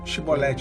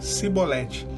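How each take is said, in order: First: The word begins with a sh sound. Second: The word begins with an s sound. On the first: This is the pronunciation the Ephraimites could not manage. The speaker calls it right. "eles não falavam Shibolete" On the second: This pronunciation gives the speaker away as an Ephraimite. The speaker calls it wrong. "eles falavam Cibolete"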